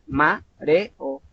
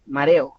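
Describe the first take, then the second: First: Said in the usual way. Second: "mareo" stretched and slow, syllables pulled apart; "mareo" spoken as separate, slow syllables; slow syllable-split. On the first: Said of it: "no es mareo". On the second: Shown as a demonstration. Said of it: "porque realmente hay dos sílabas".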